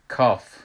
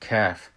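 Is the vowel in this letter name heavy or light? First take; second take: heavy; light. First: The vowel is said heavy and full. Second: The vowel is said light and thin. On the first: This is the Persian way of saying it. The speaker calls it wrong. "کاف بلند تلفظ میکنیم" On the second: This is the Arabic way of saying it. The speaker calls it right. "در حالی که کاف است"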